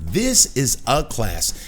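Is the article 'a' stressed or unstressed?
unstressed. The article 'a' is said weakly, without emphasis.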